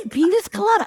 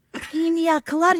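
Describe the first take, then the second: First: "pina" turned into "penis", PEE-nis colada; mother's mispronunciation. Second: "pina" said PEEN-yah, without an s; correct pronunciation. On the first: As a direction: insist on "penis colada", high, with an s ending the first word. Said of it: "That's what I say". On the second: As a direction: model "pina colada" carefully, high-pitched, with a "nya" in "pina". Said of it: "It's pronounced". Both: Retold or imitated.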